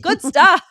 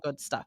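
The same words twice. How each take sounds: First: It is said with lively, enthusiastic intonation. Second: It is said flatly, without enthusiasm. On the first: The speaker calls it right. "you have to be enthusiastic when you say this word" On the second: The speaker calls it wrong. "You can't sound robotic. You can't sound monotonous. You can't just say"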